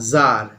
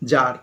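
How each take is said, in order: First: The word begins with a z sound. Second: The word begins with a j sound. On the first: This is the original form. "জেড A R" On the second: This is the changed form. "হয়ে গেল জার"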